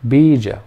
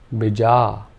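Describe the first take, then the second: First: Only the first vowel is long. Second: Only the second vowel is long. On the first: "if only the first vowel sound was long" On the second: "by putting a bar over the A"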